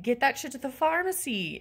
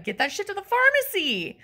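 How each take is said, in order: First: Firm but contained exasperation; exasperated demand. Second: High-pitched, insistent demand; exasperated outburst. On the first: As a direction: tell off the warehouse guy, holding back. First take of exasperated demand. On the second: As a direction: lose patience with the warehouse guy. Repeated demand, escalated. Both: Acted.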